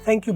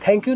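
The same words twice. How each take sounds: First: The first sound is soft friction. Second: The first sound is a hard stop. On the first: The speaker calls it right. "बोलना है" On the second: The speaker calls it wrong. "नहीं बोलना"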